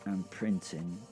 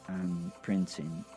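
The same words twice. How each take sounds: The two takes are said the same way.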